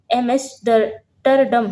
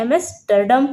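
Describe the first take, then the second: First: Very slow, drawn-out एमेस्टरडम; syllable by syllable. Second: Said in the usual way. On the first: Shown as a demonstration. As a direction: break एमेस्टरडम into separate, stretched chunks. Teacher breaks up a hard name. (एमेस्टरडम को धीरे-धीरे तोड़कर बोलना)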